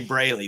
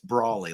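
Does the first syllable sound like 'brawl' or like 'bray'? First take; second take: bray; brawl. First: The first syllable sounds like 'bray'. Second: The first syllable sounds like 'brawl'. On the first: The speaker calls it wrong. "It's easy to say Brayley" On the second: The speaker calls it right. "like a barroom brawler"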